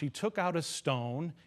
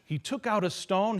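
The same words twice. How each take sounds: First: It is read flatly, with little emotion. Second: It is read vividly, with more emotion. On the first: The words are simply recited. "that's just saying it without much uh, emotion to it" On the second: The speaker is picturing the scene while telling it. "imagining the scene as I say it"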